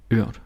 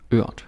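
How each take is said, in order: Both takes have the same delivery.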